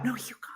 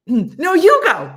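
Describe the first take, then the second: First: High, soft little comeback; small mock retort. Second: High, loud playful insistence; mock argumentative shout. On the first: Trapeze partner passing the turn back, small soft retort. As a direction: answer back small and hushed. Softer answer in trapeze exchange. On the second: Trapeze partners arguing who goes first, loud mock shout. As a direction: yell it across to a balking partner. Acting out trapeze back-and-forth.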